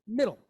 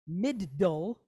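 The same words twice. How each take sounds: First: The D sound is said once, naturally. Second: The D sound is held and doubled. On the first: The speaker calls it right. "we say middle" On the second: The speaker calls it wrong. "We don't say middle"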